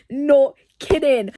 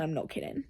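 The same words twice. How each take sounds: First: NOT KIDDING slow and forceful; emphatic repeat. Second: Said in the usual way. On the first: Real, not acted. Reader insisting after a laugh, emphatic "not kidding".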